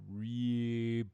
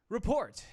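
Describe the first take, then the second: First: It is said very slowly. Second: It is said at a quick pace.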